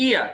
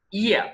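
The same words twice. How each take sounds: First: "ear" starting on a bare ee vowel; mispronounced year, as "ear"; wrong pronunciation demo. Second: "ear" said as "year", with a y onset; careful model "year"; correct pronunciation demo. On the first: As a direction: say ear with no y in front. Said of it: "not ear". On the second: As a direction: open ear on a ya glide. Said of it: "ear sound". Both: Shown as a demonstration.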